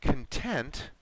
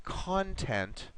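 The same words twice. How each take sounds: First: "content" stressed on the second syllable, con-TENT. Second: "content" stressed on the first syllable, CON-tent, slow. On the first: Teacher showing Eduardo syllable stress, "content" as con-TENT. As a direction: hit the TENT in "content", weak first syllable. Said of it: "your syllable stress". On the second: Teacher showing Eduardo syllable stress, "content" as slow CON-tent. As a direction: hit the CON in "content" with a full open vowel. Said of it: "have different meanings". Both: Shown as a demonstration.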